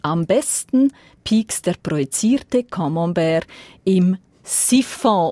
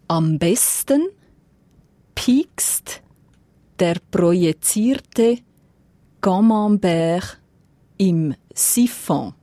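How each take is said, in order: First: The sentence is read at a fast pace. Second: The sentence is read at a slow pace. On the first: "im ziemlich zügigen Tempo" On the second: "Ich versuche langsam zu sein"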